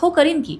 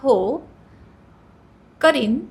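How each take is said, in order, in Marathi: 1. उत्तर उत्सुक आणि तयार वाटतं. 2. उत्तर संकोची आणि अनिच्छुक वाटतं.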